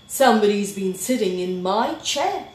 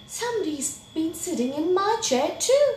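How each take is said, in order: First: Loud, forceful complaint; indignant Daddy Bear. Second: High, quick, rising dismay; shocked Mommy Bear. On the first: Daddy Bear seeing his chair was used, loudly indignant. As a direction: boom it out, affronted. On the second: Mommy Bear seeing her chair was used, high shock. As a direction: pitch it up and rush it. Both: A narrator's reading.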